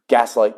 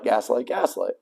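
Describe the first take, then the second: First: Said in the usual way. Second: Much softer, trailing off; fading repetition. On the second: Real, not acted. Describing the guardian to viewers, fading whisper-soft repeat. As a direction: let each gaslight fade almost to nothing. Repeated word fades away.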